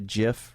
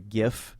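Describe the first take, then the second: First: The word begins with a J sound. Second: The word begins with a hard G sound. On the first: The speaker calls it right. "G and I together make a G a a J sound, a soft a soft J, or I guess a hard J, just a GIF" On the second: The speaker calls it wrong. "Instead of a GIF"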